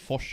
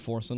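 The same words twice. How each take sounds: First: The name is said with a Swedish pronunciation. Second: The name is said with an English pronunciation. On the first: This is the original native form of the name. "That's how you pronounce that. Which nobody ever will say" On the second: This is the form everyone uses online. "Like in Sweden, they all say Forsen now"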